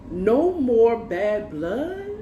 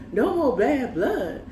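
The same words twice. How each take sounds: First: NO MORE BAD BLOOD drawn out, rising to a question; slow, disbelieving "No more bad blood?" lifting at the end; incredulous echo. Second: NO MORE BAD BLOOD higher, falling to a close; "No more bad blood" as a drawn-out, falling statement; scornful restatement. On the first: Woman throws his apology back at him, incredulous. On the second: Woman repeats his apology back to him, dismissive.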